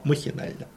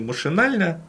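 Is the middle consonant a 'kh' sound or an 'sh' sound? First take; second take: kh; sh. First: The word is said with a 'kh' sound. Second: The word is said with an 'sh' sound. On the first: "а махинально" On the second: "иногда его произносили не машинально"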